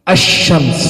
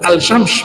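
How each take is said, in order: First: The L merges into the following consonant. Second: The L of the article is clearly pronounced. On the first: The speaker calls it right. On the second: The speaker calls it wrong.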